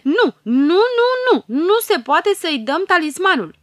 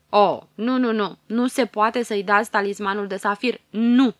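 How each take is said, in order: First: Much higher, louder chanted nos; noisy fairy chorus. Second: A loud, outraged no; loud refusal. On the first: Fairies refusing the talisman, a much higher and louder shout. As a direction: yell the refusal like a mob of little fairies. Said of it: "o aprobară zgomotos". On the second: Tiger fairy to the queen, a loud outraged refusal. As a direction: bang out every no against the gift. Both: A narrator's reading.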